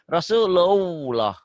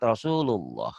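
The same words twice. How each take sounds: First: It has a full W sound before lullah. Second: It has only a brief passing W sound. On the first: The speaker calls it wrong. "jangan W yang seperti bahasa Indonesia" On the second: The speaker calls it right. "seakan-akan cuma lewat, langsung lewat"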